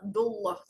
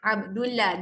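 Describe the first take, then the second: First: The 'll' sound is heavy and full. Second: The 'll' sound is light and thin. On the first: The speaker calls it right. "Abdullah tebal eh" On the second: The speaker calls it wrong. "Jangan baca Abdullah ... tu bacaan nipis"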